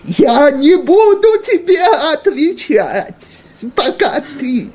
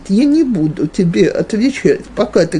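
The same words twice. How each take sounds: First: It is said in a raised, agitated tone. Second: It is said in a calm, even tone. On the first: The speaker escalates the quarrel. The speaker calls it wrong. "а не" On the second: The speaker sets a firm boundary without escalating. The speaker calls it right. "говорит это тем тоном, которым я сейчас сказала"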